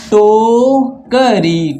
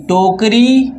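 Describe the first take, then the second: First: Drawn-out, syllable by syllable; slowly sounded out. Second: Said in the usual way. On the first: Shown as a demonstration. Teacher sounding out the word for pupils, slow. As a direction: spell it out slowly for the children. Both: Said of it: "टोकरी में आधा का या क्या है".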